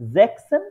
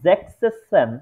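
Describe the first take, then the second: First: The middle s sound is said once. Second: The middle s sound is said twice. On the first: The speaker calls it right. "এসটা উঠে ওরা জ্যাকসন use করে সরাসরি" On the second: The speaker calls it wrong. "উচ্চারণটা আহ, একটু উম, ঠিকঠাক আসে না, জ্যাকসেসন এরকম হয়ে যায়"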